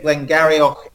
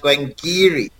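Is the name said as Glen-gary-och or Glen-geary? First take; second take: Glen-gary-och; Glen-geary. First: The name is said with an ending like gary-och. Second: The name is said with an ending like geary. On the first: This is how outsiders would read the name. The speaker calls it wrong. "you would think Glengarioch is exactly how you say it" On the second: This is how locals say the name. The speaker calls it right. "Glengarioch is pronounced Glengeary"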